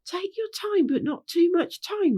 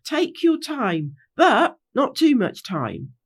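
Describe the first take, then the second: First: Much higher mimicking voice; echoing back. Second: Slow, measured direction to the group; leader's instruction. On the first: A narrator's reading. Pinky Bow repeating Rainbow's words, high-pitched echo. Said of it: "repeated Pinky Bow". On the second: Acted. Rainbow instructing the gang at the gate, slow and measured. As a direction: spell it out slowly, with a caveat. Rainbow's original, then repeated by Pinky Bow.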